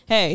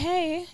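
First: The voice is low and deep. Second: The voice is light and sweet. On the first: The speaker is busy and not in the mood. "sometimes the voice be deeper" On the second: Everything is fine and the speaker is happy. "if everything cool"

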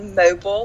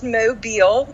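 First: It is said like the phone word. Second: It is not said like the phone word. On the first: This is how the word for a phone is said. The speaker calls it wrong. "not mobile, like mobile phone" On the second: This is the local way to say the city's name. The speaker calls it right. "it is pronounced Mobile"

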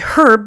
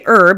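First: The word starts with an audible h sound. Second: The word starts with a vowel, no h sound. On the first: This is how the British say it. "we say herb because there's a fucking H on it" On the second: This is how Americans say it. "You say herb"

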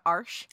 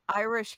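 First: The word is squeezed into one short syllable. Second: The word is said with two full syllables.

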